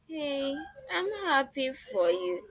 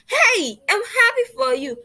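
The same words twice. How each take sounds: First: It is said flatly, without excitement. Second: It is said with an excited, lively tone. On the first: The speaker calls it wrong. "I should not speak to someone that is happy this way" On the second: The speaker calls it right. "I'm giving that excited um expression and tone"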